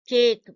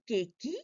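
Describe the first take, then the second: First: It ends on the K with no extra vowel. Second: An extra vowel sound is added after the K. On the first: The speaker calls it right. "it is a silent letter E sitting over there, making no noise at all" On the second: The speaker calls it wrong. "do we say cakey, bakey, plainy? No"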